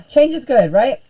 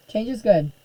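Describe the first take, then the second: First: Higher and louder, half-sarcastic cheer; wry self-persuasion. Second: Said in the usual way. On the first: Real, not acted. Teacher grumbling about Facebook's changes, wry forced cheer. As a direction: talk yourself into it with a wry push. Sighing, forcing herself to accept.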